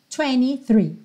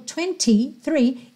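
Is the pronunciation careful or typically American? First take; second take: American; careful. First: It is said with a typical American pronunciation. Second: It is said with careful, non-American pronunciation. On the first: "ele já fez a típica pronúncia americana" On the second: "ele não cantou twenty-three"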